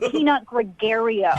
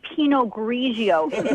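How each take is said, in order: First: The wine name is said like Peanut Gregario. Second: The wine name is said in its usual form. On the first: The speaker calls it wrong. "not Peanut Gregario" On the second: The speaker calls it right. "You don't even know how to say Pinot Grigio"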